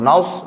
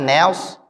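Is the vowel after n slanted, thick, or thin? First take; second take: thick; slanted. First: The vowel after n is thick and rounded. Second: The vowel after n is slanted toward e. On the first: "naus jadi tebal" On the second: "nails ini miring"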